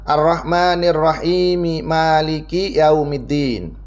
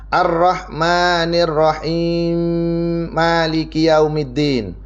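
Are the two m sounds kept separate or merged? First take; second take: separate; merged. First: The two m sounds are kept separate. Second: The two m sounds are merged into one. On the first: "biasanya kita kalau diwasolkan" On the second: "menjadi idgham. Bunyinya seperti ini"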